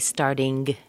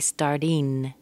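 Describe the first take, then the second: First: The ending has an added hard g sound. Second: The ending is a plain n sound. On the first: "don't say starting. There's no G sound in an ing" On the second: "some people say starting as an N"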